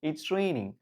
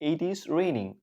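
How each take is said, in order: First: It is joined into one contracted word. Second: It is said as two separate full words.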